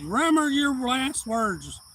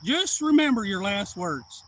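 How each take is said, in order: First: Slow, menacing, high and loud; a slow yelled warning before a fight; retold threat. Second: Slow, louder, heavy menace; repeated threat. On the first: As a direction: drag out each word as a warning. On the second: Retold or imitated. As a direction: spell it out slowly like a final warning. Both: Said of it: "I said".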